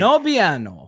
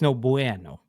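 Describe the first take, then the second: First: The second word has an 'ee' sound after b. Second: The second word has an 'oo' sound after b. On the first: The speaker calls it wrong. "We're both saying it wrong" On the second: The speaker calls it right. "but it's no bueno"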